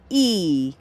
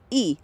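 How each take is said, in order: First: The vowel is held long. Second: The vowel is held short. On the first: "two I's" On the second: "an I"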